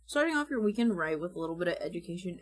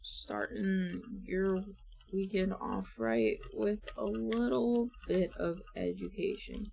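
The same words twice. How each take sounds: First: Quick, smooth host delivery; fast confident read. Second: Slowly feeling out the script; slow careful read. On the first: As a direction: rattle it off like a host. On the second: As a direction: read it word by word, unsure. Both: Shown as a demonstration. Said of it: "we will start with some scripting".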